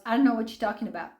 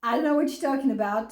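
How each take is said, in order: First: Rattled off fast, brushing it aside; fast dismissive mock of the ex-husband's denial; quick flat denial in imitation; rushed denial. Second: Fast throwaway denial; imitating the ex's hurried denial; rushed mock denial. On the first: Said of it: "And he goes". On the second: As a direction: spit it out quickly to dismiss. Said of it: "it goes from".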